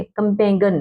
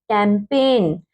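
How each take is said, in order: First: कैंपेगन with an extra gun syllable; mispronunciation. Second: कैंपेन with silent g; correct pronunciation. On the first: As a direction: sound the g in कैंपेगन. (ग बोलकर कैंपेगन) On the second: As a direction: end कैंपेन straight on n. (ग चुप रखकर कैंपेन) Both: Shown as a demonstration. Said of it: "कैंपेगन नहीं".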